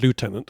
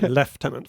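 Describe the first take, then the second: First: It is said in an American accent, 'loo-tenant'. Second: It is said in a British accent, 'lef-tenant'. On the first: "as you Americans say" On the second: "We say lieutenant for some reason in English"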